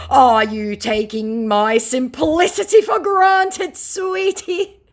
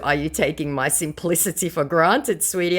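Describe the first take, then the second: First: Slow, high, loud put-on indignation; mock scammer. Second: Said in the usual way. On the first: Scammer challenging the target's insults, hammed-up indignation. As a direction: stretch it out, climbing higher to the end. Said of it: "said the scammer".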